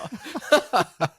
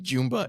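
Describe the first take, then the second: First: The name is said not rhyming with Zumba. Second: The name is said to rhyme with Zumba. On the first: The speaker calls it right. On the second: The speaker calls it wrong.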